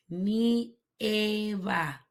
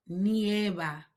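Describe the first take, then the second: First: "Nieva" drawn out in parts, "ni... eva"; syllable by syllable. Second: Said in the usual way. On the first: Shown as a demonstration. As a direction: split "Nieva" slowly for learners. Teacher splits word for learners.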